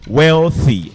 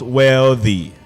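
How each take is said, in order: First: The 'th' is a voiceless hissing sound. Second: The 'th' is a voiced buzzing sound. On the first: The speaker calls it right. "it is voiceless. Voiceless dental fricative" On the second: The speaker calls it wrong.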